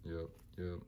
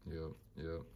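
The two takes are said the same way.

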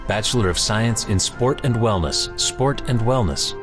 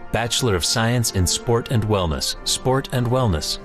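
The two takes are said the same way.

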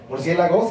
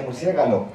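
First: Said in the usual way. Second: Murciégalo with g and l swapped; old pronunciation. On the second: Shown as a demonstration. Teacher showing the old form, archaic pronunciation. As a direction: say murciégalo, the g before the l. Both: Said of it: "se decía murciégalo".

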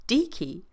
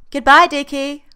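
First: Slightly raised, puzzled Dickie; puzzled question. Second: Loud, high call from another room; a sing-song goodbye called from the bathroom. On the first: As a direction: question the odd name. John puzzled by the nickname. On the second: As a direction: call it out across the flat. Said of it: "Freddy calls from the bathroom". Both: Acted.

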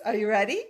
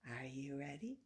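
First: Louder, eager call; loud ask. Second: Much softer and lower, near a whisper; hushed ask. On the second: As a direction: pull it down to a secret hush. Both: Pretend. Loud then hushed repeat.

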